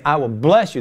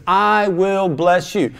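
First: Said in the usual way. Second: "I will bless you" drawn out slowly, higher, with a long "I"; emphatic promise. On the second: Acted. Preacher repeating God's promise, "I" slow and emphatic. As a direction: stretch "I" long and high, then land "will bless you" firmly.

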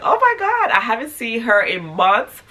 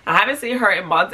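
First: Excited. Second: Said in the usual way. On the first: Retold or imitated. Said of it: "I was like". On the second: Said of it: "excuse me".

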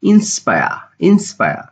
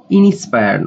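First: Inspire as "in-SPA-ya", no extra vowel; correct pronunciation demo. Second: Inspire with an extra vowel, "ini-spayar"; wrong pronunciation demo. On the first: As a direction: say inspire cleanly as "in-spaya", higher pitch. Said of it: "সঠিক উচ্চারণ হবে". (inspire-এর সঠিক উচ্চারণ "ইন্সপায়া") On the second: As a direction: mispronounce inspire as "i-ni-spa-yar". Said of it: "সঠিক উচ্চারণ হবে inspire না". (inspire-এর ভুল উচ্চারণ "ইনিস্পায়ার") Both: Shown as a demonstration.

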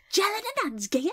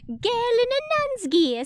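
First: "Gel" said as jel, clipped posh; higher Cockney line with "Gel"; gel for girl. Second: High, loud Cockney policeman; hammed-up high Cockney voice; Cockney accent. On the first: Shown as a demonstration. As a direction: say "Gel in a nun's gear" with jel. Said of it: "it's gel, isn't it". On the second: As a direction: put on a bad high Cockney. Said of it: "I can't do a Cockney accent".

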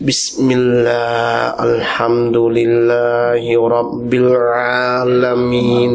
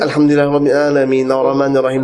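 First: Low, drawn-out monotone chant; slow droning prayer recitation. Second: Quick, run-together recitation; hurried prayer on one level pitch; trying to recite. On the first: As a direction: imitate a worshipper dragging every syllable. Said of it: "อ่านช้ามากเลย". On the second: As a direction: rattle through the prayer in one go. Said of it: "เราเนี่ยพยายามที่จะ". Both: Acted.

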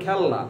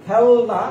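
First: খেলনা in two syllables, "khel-na"; everyday pronunciation. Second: খেলনা with an extra o, "khe-lo-na"; unused pronunciation. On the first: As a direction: close on ল in খেলনা, straight into না. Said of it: "আমরা বলি খেলনা". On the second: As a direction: insert an o after the ল in খেলনা. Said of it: "উচ্চারণটা আমরা খেলনা বলি না". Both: Shown as a demonstration.

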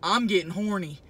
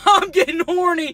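First: Said in the usual way. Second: Louder, higher, laughing through it; giggly, loud repeat. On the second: Real, not acted. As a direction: repeat it cracking up.

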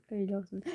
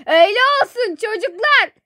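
First: Low, soft mock hurt; quiet wounded resignation. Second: High, loud mock-hurt call; loud wounded shout. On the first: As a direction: say it softly, as if wronged. Quiet take before the shout. (kısık sesle, yapmacık kırgın) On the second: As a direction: holler the reproach to the whole house. Shouts it down to the children. (yüksek sesle, sitemli bağırış)

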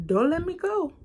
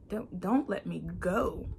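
First: Cried out much higher and louder; pleading prayer cry, high and loud; desperate plea. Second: Said in the usual way. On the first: Retold or imitated. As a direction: beg God not to let go. Quoting her prayer to God.

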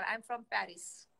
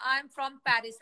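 First: Drawn out very slowly, word by word; slow demo line. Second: Said in the usual way. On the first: Shown as a demonstration. Teaching a friend how to introduce herself, very slow. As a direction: stretch each word of "I am from Paris". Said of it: "ऐसे बोला कर". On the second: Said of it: "तू ये बोला कर".

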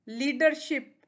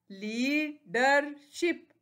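First: Said in the usual way. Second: leadership very slow as ली, डर, शिप; three separate beats in leadership; split into syllables. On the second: Shown as a demonstration. (Leadership को तीन हिस्सों में रुककर) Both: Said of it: "three syllables हैं".

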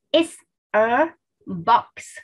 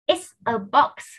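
First: Slow, with a gap after each word; careful, spaced-out teacher's demonstration; word-by-word model. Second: Said in the usual way. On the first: Shown as a demonstration. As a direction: separate IT'S, A and BOX for learners.

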